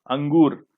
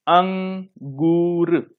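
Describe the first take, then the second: First: Said in the usual way. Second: अंगूर very slowly, split as अं-गूर; stretched-out teaching model of अंगूर; nasal sound demonstration. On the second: Shown as a demonstration. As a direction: hold the nasal opening of अंगूर, then a long गूर. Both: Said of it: "बोल के देखिए आप लोग".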